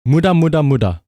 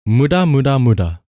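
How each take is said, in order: Both takes have the same delivery.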